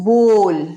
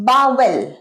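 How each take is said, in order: First: It is said as one syllable, 'bole'. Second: It is said as two syllables, 'bowel'. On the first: The speaker calls it right. "Correct কি? বোল" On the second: The speaker calls it wrong. "অনেকে বলো বাওয়েল, ভুল"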